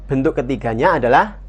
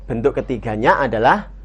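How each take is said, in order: The two takes are said the same way.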